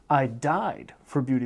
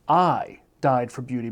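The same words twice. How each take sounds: First: The stress is on the word died. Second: The stress is on the word I. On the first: The person died for it rather than lived for it. "I died for beauty as opposed to living for it" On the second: It was this person, not someone else, who died. "Emphasis on I"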